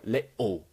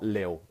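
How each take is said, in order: First: Both syllables are kept, with a throat stop inside. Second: The word is cut short to one syllable. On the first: The speaker calls it right. "we do that glottal T where it's like coughing in your throat" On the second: The speaker calls it wrong. "not lil"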